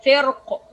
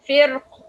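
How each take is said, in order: First: فرق with a light, thin ra. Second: فرق with a heavy, full-mouthed ra. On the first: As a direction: say فرق with an empty mouth. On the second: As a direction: say فرق with a thick ra. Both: Shown as a demonstration. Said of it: "This is the difference".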